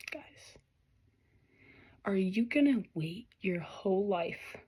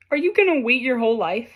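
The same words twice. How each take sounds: First: Hushed whisper to the viewers. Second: Said in the usual way. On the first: Real, not acted. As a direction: lean in and whisper the question. Tarot reader whispers to viewers.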